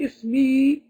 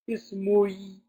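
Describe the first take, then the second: First: The word ends in a plain 'i' vowel. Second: A 'u' vowel comes before the final 'i'. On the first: The speaker calls it right. "You can only hear a kasra" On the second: The speaker calls it wrong. "You will not be able to say ismui"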